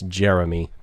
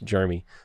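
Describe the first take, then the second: First: The first syllable does not sound like germ. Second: The first syllable sounds like the word germ. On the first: "But I believe it's Jeremy" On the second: "I always want to say it like you're covered in germs"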